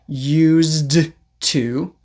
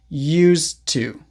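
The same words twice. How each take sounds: First: The final consonant is released with air. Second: The final consonant is held without air. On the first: "Instead of saying" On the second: "don't release the air"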